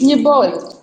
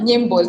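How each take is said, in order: First: No m sound comes before the b. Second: An m sound comes before the b. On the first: The speaker calls it right. "It's Nyibol" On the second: The speaker calls it wrong. "But it's not Nyimbol"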